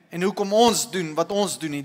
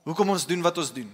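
First: "ons" punched as the contrast, set against "hy"; stress on ons. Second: Quicker, with "hoekom" leading the phrase; stress on hoekom. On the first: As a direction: lean on "ons" in both places. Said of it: "stress contrast hy/ons". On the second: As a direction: hit "hoekom", then let the rest run quickly. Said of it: "repeated line". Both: Shown as a demonstration.

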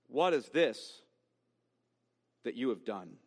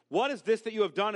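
First: Said in the usual way. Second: "What is this that you have done?" louder and higher, pushed fast; emphatic rebuke; emphatic question. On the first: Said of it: "Then the Lord God said". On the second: Shown as a demonstration. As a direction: press the question hard, almost accusing. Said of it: "is a kind of emphatic question".

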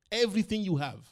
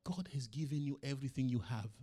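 First: A sudden loud preacher's cry, higher; loud emphatic repeat. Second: Said in the usual way. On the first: Acted. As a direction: hammer the point home to the church.

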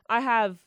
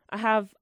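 Both takes have the same delivery.

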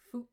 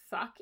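First: "fook" with an oo vowel; Irish-style fook. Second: Said in the usual way. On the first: Shown as a demonstration. Co-host demonstrates how the book's hero swears, "fook" with oo. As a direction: say "fook", rhyming roughly with spook. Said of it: "whenever he says the word fuck". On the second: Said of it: "it's fook".

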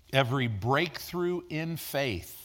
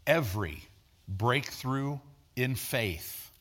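First: Slowed, stressed "breakthrough"; "Every breakthrough in faith" with a slow falling stress on "breakthrough"; slow emphasis. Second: Very slow, softer, spaced repeat; "every", a pause, then a half-speed, quiet "breakthrough in faith"; slower repeat. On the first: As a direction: lean on "breakthrough" slowly. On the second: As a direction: let "every" hang, then draw out "breakthrough in faith" softly. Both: Shown as a demonstration. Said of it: "let me say this again".

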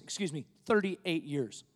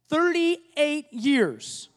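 First: Said in the usual way. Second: "Thirty-eight years" drawn out slowly and weighted; slow, stressed "Thirty-eight years". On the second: Shown as a demonstration. Pastor stressing to the church how long the journey lasted, slow and weighty. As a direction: let "Thirty-eight years" land slowly, each word heavy.

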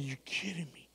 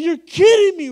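First: Softer, whispered disbelief. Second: High, loud laughing disbelief. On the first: Preacher answering the Lord, whispering in disbelief. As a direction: whisper it, can't believe it. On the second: Preacher to the lady with the gift, laughing disbelief. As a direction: laugh it out, can't believe it. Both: Retold or imitated. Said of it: "I said".

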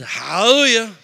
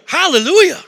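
First: Louder but held back, retold; dutiful repeat. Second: High, loud, exuberant cry; retold burst of excitement; excited praise. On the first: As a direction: say it because you were told to. Reluctant first repeat after wife. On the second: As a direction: shout it out like a new convert. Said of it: "I'm getting kind of excited now".

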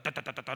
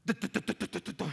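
First: Teasing tu tu tu, quick and clipped like gunfire; playful machine-gun imitation; mock machine-gun stutter. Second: Mock stammer, a light tapping burst; lightly voiced stuttering child; imitating a stuttering boy. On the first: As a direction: rattle it off like a machine gun to tease him. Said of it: "Pareces vos ametralladora". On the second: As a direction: copy the boy's stuck syllables, half-teasing. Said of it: "Un niño que apenas hablaba".

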